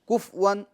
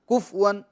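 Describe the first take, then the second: The two takes are said the same way.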